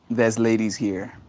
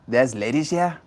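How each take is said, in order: First: It is said in his plain voice. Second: It is said in a strong Yiddish accent.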